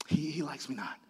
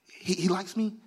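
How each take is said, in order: First: Very soft, low, falling tone; quiet disappointment. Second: Soft, slightly rising, hopeful daisy-petal count; tentative hope. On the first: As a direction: let the hope drop away quietly. Unlucky petal about God's favour. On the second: Plucking petals about God's favour. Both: Acted.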